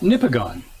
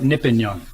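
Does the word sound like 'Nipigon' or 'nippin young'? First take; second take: Nipigon; nippin young. First: The place name is said in its usual form. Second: The name sounds like the words 'nippin young'.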